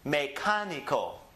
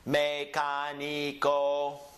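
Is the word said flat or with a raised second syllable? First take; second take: raised; flat. First: The second syllable is raised and stressed. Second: All syllables are said at one flat pitch. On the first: The speaker calls it right. "the me is down low... the ka is going to be up" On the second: The speaker calls it wrong. "instead of saying mecanico, mecanico, straight across"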